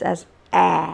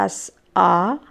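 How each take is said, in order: First: It is said with an American pronunciation. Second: It is said with a British pronunciation. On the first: "and the Americans as A" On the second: "The British pronounce it as"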